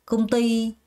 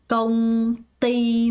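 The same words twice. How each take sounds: First: The stress falls on the second syllable. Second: Both syllables get even stress. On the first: The speaker calls it right. "띠에 강세를 줍니다" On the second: The speaker calls it wrong. "요렇게 발음하는 사람 없습니다"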